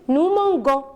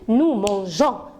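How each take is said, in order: First: The g is said hard, as in go. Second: The g is said soft, like the s in measure. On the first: The speaker calls it wrong. "si je laisse comme ça le mot, je vais lire nous mangeons" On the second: The speaker calls it right. "j'ai besoin de dire nous mangeons ... je dois prononcer le son je"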